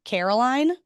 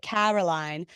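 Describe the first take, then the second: First: "Caroline" with a tight, narrow a; "Caroline", a squinchy DC a; "Caroline" as said in D C, a squeezed a. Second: Lower, softer mock-posh British "Caroline"; "Caroline" with an open British a, lightly hammed; imitating a mother's British "Caroline"; uppity British accent. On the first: Shown as a demonstration. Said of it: "very squinchy A". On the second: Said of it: "a British accent ... feeling uppity".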